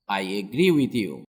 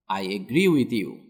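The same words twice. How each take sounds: The two takes are said the same way.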